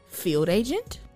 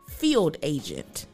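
First: The voice rises at the end. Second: The voice falls at the end.

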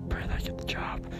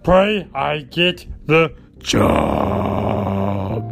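First: It is said at normal, softer volume. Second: It is said noticeably louder.

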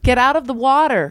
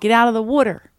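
First: It is said in a standard American accent. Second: It is said in a broad Philadelphia accent. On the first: "because I was practicing my" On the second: "in South Philly, you blow the whistle and you're like"

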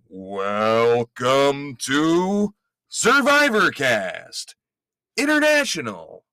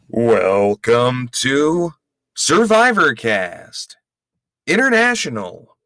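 First: It is said with more enthusiasm. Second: It is said with little enthusiasm.

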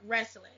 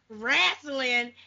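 First: The word is said in a standard way. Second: The word is said in a Southern dialect way.

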